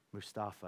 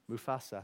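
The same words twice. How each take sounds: First: "Mustafa" said with a t, moo-STAH-fah; "Mustafa", the mistaken form, musta-fa; wrong name. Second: "Mufasa" said moo-FAH-sah, no t; "Mufasa", the right name, with f and s; corrected name. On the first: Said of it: "Is that his name?". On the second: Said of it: "I have to start again". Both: Shown as a demonstration.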